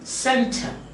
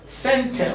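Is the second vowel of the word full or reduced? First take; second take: reduced; reduced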